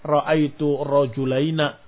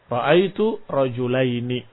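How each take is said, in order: First: The last word ends with an a vowel. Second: The last word ends with an i vowel. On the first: This is a dialect form. "Walaupun ada dialek" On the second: This is the most common form. "yang masyhur dengan kasrah"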